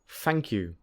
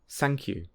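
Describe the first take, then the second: First: It begins with an f sound. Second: It begins with an s sound. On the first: "learners often say f or s instead of th" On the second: "learners often say f or s instead of th"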